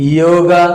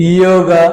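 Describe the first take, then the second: Both takes have the same delivery.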